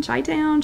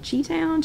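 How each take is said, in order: First: Chi-town said as "chy-town"; Chi-town with a "chy" first syllable, self-correcting; fixing Chi-town to "chy-town"; corrected Chi-town. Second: Chi-town said as "chee-town"; Chi-town with a "chee" first syllable, pitched up; fumbling Chi-town as "chee-town"; wrong try at Chi-town. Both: Real, not acted. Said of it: "I always say it wrong".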